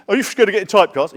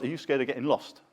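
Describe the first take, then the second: First: Louder, higher, fast nosy question; imitating a taxi driver's question; mock taxi driver. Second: Said in the usual way. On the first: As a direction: fire it off like a cabbie prying. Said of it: "taxi drivers used to say that to me". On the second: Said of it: "would be my retort".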